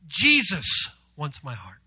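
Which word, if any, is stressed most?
Jesus. The emphasis falls on Jesus. "give emphasis to Jesus"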